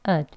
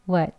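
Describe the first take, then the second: First: The w is dropped, leaving only a short vowel. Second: The w stays but the vowel is reduced. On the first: "이 워 하는 소리도 없죠. 그냥 ud" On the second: "약형은... 어 하는 소리를 넣어서"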